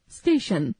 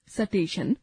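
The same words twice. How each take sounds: First: Said in the usual way. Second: स्टेशन said as सटेशन with a vowel slipped between s and t; wrong pronunciation. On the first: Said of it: "शुद्ध उच्चारण". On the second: Shown as a demonstration. Teacher demonstrating the common mistake to pupils. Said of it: "अशुद्ध उच्चारण".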